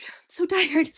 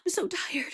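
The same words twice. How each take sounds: First: A forced, louder whisper, drained; louder tired whisper. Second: Whispered, worn out and confessional; tired whisper. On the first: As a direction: push the exhaustion out on breath. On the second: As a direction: breathe it out like a secret of exhaustion. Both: Real, not acted. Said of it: "Pray for me".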